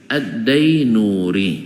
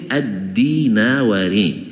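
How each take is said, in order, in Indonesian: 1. Namanya punya empat suku kata, berakhir '-nuri'. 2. Namanya punya lima suku kata, berakhir '-nawari'. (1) "Dibaca oleh guru-guru kami dulu Ad-Dainuri" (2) "Aslinya itu Ad-Dinawari"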